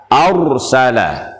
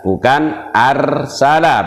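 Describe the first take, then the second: First: Arsala with heavy rounded ra; thick ra. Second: Arsala with a thin light ra; wrong thin ra. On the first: Teacher shows the right heavy ra. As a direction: say Arsala with a full dark ra. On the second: Teacher shows the wrong thin ra. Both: Shown as a demonstration.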